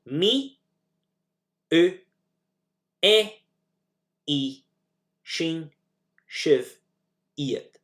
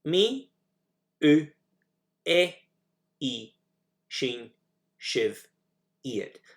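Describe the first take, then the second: First: Each pronoun spaced out, "Me" higher and louder; slow drill, one word at a time with pauses. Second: "Me, u, e, i, shin, shiv, iad" repeated slowly, fading; second slower, quieter run through the list; softer pronoun drill. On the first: Teacher drills the Gaelic pronouns, paced. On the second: Teacher repeats the pronouns, fading softer. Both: Shown as a demonstration. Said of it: "So here we go".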